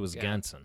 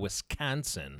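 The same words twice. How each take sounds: First: The middle consonant sounds like a G. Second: The middle consonant is a plain K sound. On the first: The speaker calls it right. "There's like a G in there" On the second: The speaker calls it wrong. "It's not a Wisconsin"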